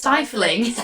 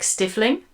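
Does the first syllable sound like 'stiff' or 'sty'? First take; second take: sty; stiff. First: The first syllable sounds like 'sty'. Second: The first syllable sounds like 'stiff'. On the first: The speaker calls it right. "And it's stifling" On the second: The speaker calls it wrong. "for the longest time, I said, like, stifling"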